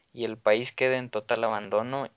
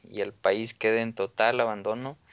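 The two takes are said the same way.

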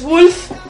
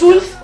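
First: The word begins with a w sound. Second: The word begins with a plain vowel sound. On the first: The speaker calls it right. "es Wolf" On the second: The speaker calls it wrong. "no es Ulf"

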